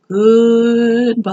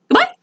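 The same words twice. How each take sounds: First: It is said slowly. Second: It is said quickly.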